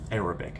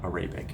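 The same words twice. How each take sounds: First: The stress falls on the first syllable. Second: The stress falls on the second syllable. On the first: The speaker calls it right. "I just recently learned like the stress on that word" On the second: The speaker calls it wrong.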